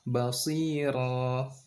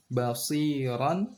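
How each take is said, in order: First: The word ends with a long vowel, no n. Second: The word ends with a short vowel plus n. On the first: The reader stops at this word. "basiran menjadi basira" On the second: The reading continues without stopping. "basiran menjadi basira"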